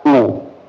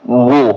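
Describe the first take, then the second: First: It starts with a plain u vowel. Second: It starts with a w from both lips. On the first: The speaker calls it wrong. "tapi tidak tidak pas makhraj" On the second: The speaker calls it right. "wu digerakkan"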